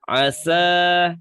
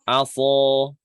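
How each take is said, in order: First: The letter is pronounced thin and light. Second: The letter is pronounced thick and heavy. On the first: The speaker calls it right. "Seharusnya bacanya asa" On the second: The speaker calls it wrong. "tapi bacanya aso"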